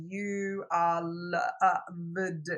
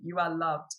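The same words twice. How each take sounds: First: Very slow, sounded-out words; reading aloud haltingly. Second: Said in the usual way. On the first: Retold or imitated. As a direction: read it like a child sounding out letters. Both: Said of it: "she's sounding out the words".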